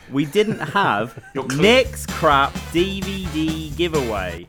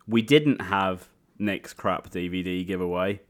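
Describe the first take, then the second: First: It is said in a special put-on voice. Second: It is said in an ordinary speaking voice. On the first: The speaker calls it right. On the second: The speaker calls it wrong.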